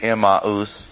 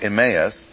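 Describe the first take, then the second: First: The name is said in a way closer to Greek. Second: The name is said in an anglicized English way. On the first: "that might be a little closer to the Greek" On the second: "we always anglicize or Saxonize pronunciation"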